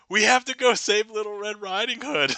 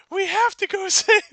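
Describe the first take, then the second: First: Moderately high, loud woodsman voice; less squeaky redo. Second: Very high, loud squeaky woodsman; high-pitched voice. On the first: Woodsman urging rescue again, toned-down high voice. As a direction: bring the squeak down a notch. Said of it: "has a high-pitched voice". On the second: Woodsman urging rescue, very high squeaky voice. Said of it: "why Alcumutation has a high-pitched voice". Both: Acted.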